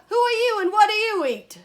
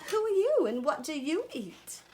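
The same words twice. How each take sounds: First: Very high, very loud question; full-out storybook shout. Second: High crocodile question, lightly Australian; storybook Australian croc, pointed question; attempted Australian accent. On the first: Acted. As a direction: bellow the question like a brash frog. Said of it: "shouted the wide-mouthed frog". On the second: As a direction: start high and come down, Australian-style. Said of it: "I tried to do my Australian accent".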